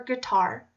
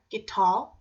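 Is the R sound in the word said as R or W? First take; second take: R; W. First: The R sound is said as R. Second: A W sound replaces the R sound.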